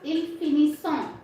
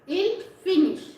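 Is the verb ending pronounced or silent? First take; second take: pronounced; silent. First: The final ending is sounded as a nasal vowel. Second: The final ending is silent after the s sound. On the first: The speaker calls it wrong. "We never pronounce il finissant" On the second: The speaker calls it right. "but we pronounce il finish"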